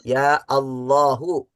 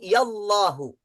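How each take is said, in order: First: A glottal stop separates ya from Allahu. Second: Ya runs straight into Allahu without a stop. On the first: "dengan membaca hamzahnya" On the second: "dengan tidak membaca hamzahnya"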